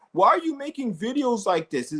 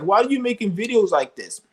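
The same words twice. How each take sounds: First: High, mocking voice for the hater; lightly mocking whiny hillbilly. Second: Higher, mocking quote of the critic; lightly mocking whiny hillbilly; mocking whiny hater. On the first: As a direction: mimic a whiny critic to ridicule him. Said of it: "He's all like". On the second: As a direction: parrot the critic with scorn. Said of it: "he's like".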